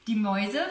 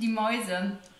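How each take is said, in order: First: The phrase is spoken at a fast pace. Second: The phrase is spoken at a slow pace. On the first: The speaker calls it wrong. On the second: The speaker calls it right.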